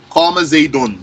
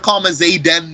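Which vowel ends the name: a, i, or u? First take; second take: u; a. First: The name ends with an u vowel. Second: The name ends with an a vowel. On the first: The speaker calls it right. "the sign of its rafa' dhamma, is a dhamma" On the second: The speaker calls it wrong. "I can't say here qama zaydan with a fatha"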